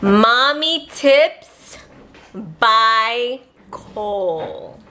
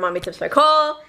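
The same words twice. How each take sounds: First: The phrase is said slowly and clearly. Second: The phrase is said quickly and slurred. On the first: The speaker calls it right. "Stop and enunciate it" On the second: The speaker calls it wrong. "I talk really fast sometimes"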